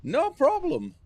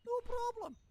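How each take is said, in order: First: "No problem." leaps very high and loud; squeaky Scottish punchline. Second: "No problem." leaps very high and loud; squeaky punchline. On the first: Retold or imitated. Streamer copying the dwarf's punchline, high and loud. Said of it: "I could work on my Scottish accent". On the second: Acted. Game dwarf ending his boast, high and loud.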